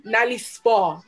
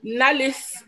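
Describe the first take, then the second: First: Nali Spa said as two separate words; Nali, then Spa, clearly split; corrected name. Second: Nalis said as a single word; wrong name. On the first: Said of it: "Not Nalis, Nali Spa". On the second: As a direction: runs it together as Nalis. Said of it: "Not Nalis". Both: Shown as a demonstration.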